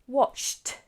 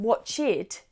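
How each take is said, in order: First: The ending is a single t sound. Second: The ending is an extra syllable. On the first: The speaker calls it right. "but just watched" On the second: The speaker calls it wrong. "watch does not become watched"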